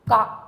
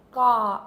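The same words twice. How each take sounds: First: "ga" said fast and short from the back of the throat. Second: "ga" said at normal length, loud; plain first-row ga. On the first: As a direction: snap "ga" out quickly from the throat. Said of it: "it has to be said fast". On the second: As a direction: say "ga" plainly, unhurried. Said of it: "the first word of the first row is". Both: Shown as a demonstration.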